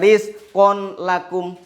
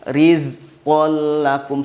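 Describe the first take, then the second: First: The n sound is kept before the l. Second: The n merges into a pressed, doubled l. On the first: The speaker calls it wrong. "Nggak boleh dibaca rizqon lakum" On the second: The speaker calls it right. "dibaca dengan rizqol lakum, seperti satu kesatuan"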